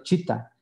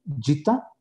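First: "chita" con ch española sorda; CH fuerte, incorrecta. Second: "Yita" con y sonora, como j inglesa; CHH suave y sonora. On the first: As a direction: pronunciar "chita" con ch sin voz. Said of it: "y esa no es la palabra". ("chita" con la ch de lechuga) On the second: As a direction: pronunciar "Yita" con consonante inicial con voz. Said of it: "Si escribes yita con una sola H". ("Yita" con sonido suave zapoteco) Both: Shown as a demonstration.

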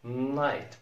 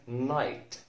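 No difference in how they are said.

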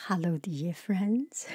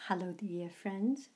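First: Voiceover greeting. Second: Softer, distant greeting off mic; softer voiceover hello without the mic. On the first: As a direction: greet listeners like a voiceover read. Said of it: "so we are doing the voiceover". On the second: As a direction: greet from arm's length, gently. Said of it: "I will take away the microphone". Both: Shown as a demonstration.

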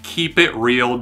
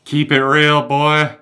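First: Said in the usual way. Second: "Keep it real" called out louder, like a hype slogan; cheesy catchphrase. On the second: Shown as a demonstration. Mocking his old show title, hammed-up hype. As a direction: belt "Keep it real, boy" like a bro.

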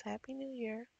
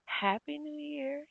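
First: Said in the usual way. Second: Cheerful high greeting. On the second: Pretend. Cheering for Sims.

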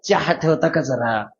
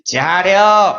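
First: Polite city request. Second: Blunt village order. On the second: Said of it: "आपल्या अडाणी माणसानं काय म्हणलं". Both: Retold or imitated.

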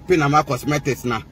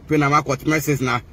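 No difference in how they are said.

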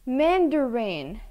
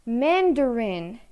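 Both takes have the same delivery.

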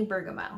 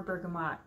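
First: Bergamot ending in an open "moh", no T; silent final T. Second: Bergamot ending in "mot", T pronounced; sounded final T. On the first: Host names the last oil for viewers, bergamot with silent T. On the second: Host offers viewers the other pronunciation, bergamot with sounded T. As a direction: say bergamot as "burga-mot", rhyming with hot. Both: Shown as a demonstration. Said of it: "however you wanna say it".

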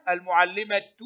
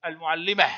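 First: المعلمة as "al-mu'allimatu", t plus u; sounded ta. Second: المعلمة as "al-mu'allimah", ending on h; pausal ha. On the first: Teacher showing pupils connected reading, المعلمة ending "-tu". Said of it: "تنطق تاء في الحركة". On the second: Teacher showing pupils the stop, المعلمة ending in h. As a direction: stop on المعلمة with no t, just "-mah". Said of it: "وهاء عند الوقف". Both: Shown as a demonstration.

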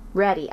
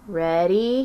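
First: Ready with a falling, settled tune; answering fall. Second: Ready with a rising question tune; asking rise. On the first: Junie confirming to Grandpa, falling tune. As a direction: confirm it, let Ready drop. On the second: Grandpa checking Junie is ready, rising question. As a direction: ask it, lift the end of Ready. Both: Acted.

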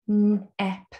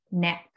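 First: Nap drawn out slowly; sounding out words. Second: Said in the usual way. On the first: Shown as a demonstration. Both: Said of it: "you can sound out the words".

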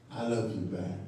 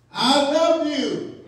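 First: Low, soft reply to an admirer; President Obama. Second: High, drawn-out call from a crowd; mock scream. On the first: Retold or imitated. President Obama turning around to answer a supporter, low and quiet. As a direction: answer the fan quietly, dropping the pitch. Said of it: "he'd turn around and say". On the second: Supporter screaming out to President Obama, mock scream. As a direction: mimic a fan yelling out, stretching the words. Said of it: "someone would scream out".

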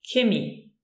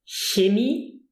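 First: Chemie with hard K, ending falling; K sound. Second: Chemie with soft hissed ch, ending rising. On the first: Teacher contrasting regional forms for learners, chemie with K. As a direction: say chemie as "kay-MEE". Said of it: "with a K". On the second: Teacher contrasting regional forms for learners, Chemie with soft ch. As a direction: say Chemie as "hyay-MEE?". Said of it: "some people actually pronounce it". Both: Shown as a demonstration.

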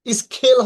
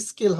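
First: "স্কেল" with a puffed KH after S, louder; forceful air after K in "স্কেল"; wrongly aspirated K. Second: "স্কেল" with a plain K after S; hard K, no puff, in "স্কেল"; unaspirated K. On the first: Teacher showing the wrong version, wrongly aspirated K. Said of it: "স্কেল হবে না". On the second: Teacher giving the corrected version, unaspirated K. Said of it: "কিন্তু স্কেল হবে". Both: Shown as a demonstration.

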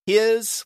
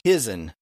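First: Said in the usual way. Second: "his'n" said as "HIZ-un"; added N ending. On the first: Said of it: "instead of his". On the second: Shown as a demonstration. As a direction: add a syllabic N to the end of "his'n". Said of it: "H I S apostrophe N".

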